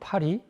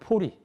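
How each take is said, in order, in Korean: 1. 첫 음절의 모음은 'a'예요. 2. 첫 음절의 모음은 'o'예요. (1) "우리는 파리죠" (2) "전라남도는 포리라고 해요"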